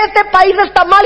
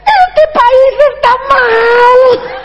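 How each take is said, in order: First: Said in the usual way. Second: Very slow, high wail; old president bawling on TV, hammed up; imitated crying. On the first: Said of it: "decía". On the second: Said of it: "y se ponía a llorar".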